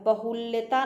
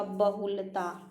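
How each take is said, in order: First: बहुल्यता with a य sound; बहुल्यता as the mistake; wrong form. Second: बहुलता with no य; बहुलता as the right form; correct form. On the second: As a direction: says बहुलता plainly. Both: Shown as a demonstration. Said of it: "बहुल्यता नहीं होता".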